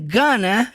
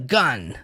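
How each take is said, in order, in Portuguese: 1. A palavra é dita por inteiro, em duas sílabas. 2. A palavra é encurtada para uma sílaba curta.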